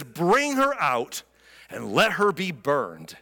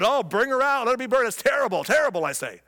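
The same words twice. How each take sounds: First: A slow, stern verdict; stern demand. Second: Higher, louder mock outrage; loud and proud. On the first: Retold or imitated. Judah condemning Tamar, slow stern demand. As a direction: hand down the sentence slowly and coldly. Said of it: "Judah demanded". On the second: Judah posing as righteous, loud pompous outrage. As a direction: ham up the righteous indignation. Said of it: "he's all loud and proud".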